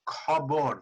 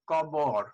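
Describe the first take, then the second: First: The first consonant has a strong puff of air. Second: The first consonant has no puff of air. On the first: The speaker calls it right. "the breathy aspirated Bengali sound" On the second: The speaker calls it wrong. "you were not expelling the puff of air"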